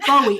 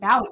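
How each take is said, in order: First: The first syllable rhymes with 'go'. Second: The first syllable rhymes with 'wow'. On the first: The name is said the way its owner says it. The speaker calls it right. "[name] pronouncing his name and he pronounces it Bowie" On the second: The name is read as if it sounded like a dog's bark. The speaker calls it wrong. "It's a pun, like [name]"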